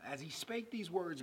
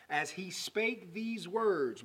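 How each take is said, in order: First: Said in the usual way. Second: "as he spake these words" slowed right down, word by word; slow emphasis. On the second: Real, not acted. Preacher repeating a verse not to be missed, slow emphasis. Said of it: "don't miss this".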